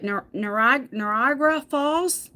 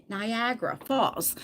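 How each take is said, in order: First: Niagara said haltingly as "nuh-RAH-gra"; fumbled pronunciation. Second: Niagara said slowly as "nai-AG-ra"; softly, carefully land Niagara with "eye-AG" in the middle; correct pronunciation. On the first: Vlogger can never pronounce the waterfall's name, fumbled Niagara as "nuh-RAH-gra". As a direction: stumble through Niagara, losing the "eye-AG" middle. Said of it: "I can never pronounce it right". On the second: Vlogger finally said the name, careful slow Niagara as "nai-AG-ra". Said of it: "Oh, I said it". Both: Real, not acted.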